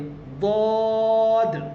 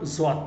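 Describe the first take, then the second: First: The letter begins with a light in-between sound. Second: The letter begins with a j-like sound. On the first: The speaker calls it right. "ना द्वाद है ना ज्वाद, बल्कि बीच का है। हल्की आवाज़ आनी चाहिए" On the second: The speaker calls it wrong. "ज्वाद पढ़ते हैं"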